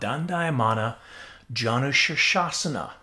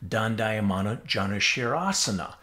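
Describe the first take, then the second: First: The second word contains the syllables 'shirsha'. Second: The second word contains the syllables 'shira'. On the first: This is the original Sanskrit name. The speaker calls it right. "in Sanskrit we call it" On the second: This is how one school of yoga says it. The speaker calls it wrong. "in the Bikram world they call it"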